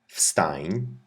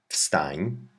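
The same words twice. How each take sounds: No difference in how they are said.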